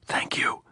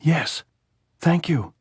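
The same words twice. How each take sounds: First: Breath-only thanks swallowed by tears; choked whisper. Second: Loud, higher cry breaking through tears; choking shout. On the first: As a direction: let it catch in the throat, no voice. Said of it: "then choking again". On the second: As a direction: shout back while choking on sobs. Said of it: "she turned from the saddle and shouted, choking". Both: A narrator's reading.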